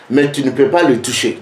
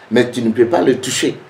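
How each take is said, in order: Both takes have the same delivery.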